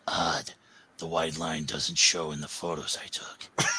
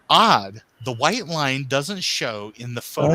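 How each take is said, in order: First: It is read in a Rorschach voice. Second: It is read in his normal voice.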